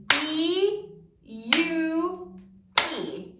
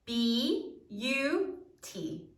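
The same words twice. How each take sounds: First: Very slow, every sound stretched out; over-pronounce "B U T" so each sound is heard; exaggerated syllables. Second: Slow syllables. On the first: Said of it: "we're gonna exaggerate it so you can hear every sound". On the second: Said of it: "we're gonna exaggerate it". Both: Shown as a demonstration.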